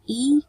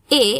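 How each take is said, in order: First: The letter is said with an 'ee' vowel. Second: The letter is said with an 'ay' vowel. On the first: This is the English letter name. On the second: This is the Indonesian letter name.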